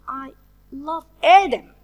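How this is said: The word Adam carries the main stress. It is this person and no one else who is loved. "So it's Adam, not anyone else in the world"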